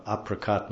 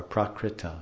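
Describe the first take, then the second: First: "aprakat" ending on a closed t; alternate form aprakat. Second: "aprakrita" with krita ending on an open a; alternate form aprakrita. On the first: Teacher showing two ways to say the term, "aprakat" ending in t. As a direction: say "aprakat", stopping short on the t. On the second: Teacher showing two ways to say the term, full "aprakrita". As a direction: say "aprakrita" in full, through the final a. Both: Shown as a demonstration. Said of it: "There's two ways to say it".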